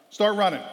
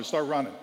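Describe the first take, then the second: First: Louder, higher barked order; coach command. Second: Said in the usual way. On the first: Retold or imitated. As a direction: bark the order sharply. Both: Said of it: "Favorite thing Coach says".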